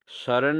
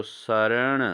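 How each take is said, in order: First: शरण ending in plain dental n; wrong pronunciation. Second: शरण ending in retroflex n; correct pronunciation. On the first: Teacher shows students the error, शरण with plain n. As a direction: say शरण as "saran", n unflapped. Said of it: "नहीं दोस्तों". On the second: Teacher corrects students, शरण with retroflex n. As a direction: flap the final n of शरण. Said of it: "अणो लगेगा". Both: Shown as a demonstration.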